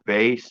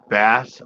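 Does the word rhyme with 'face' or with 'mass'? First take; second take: face; mass. First: The vowel sounds like the one in 'face'. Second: The vowel sounds like the one in 'mass'. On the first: It names the musical instrument or low sound. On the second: It names the fish.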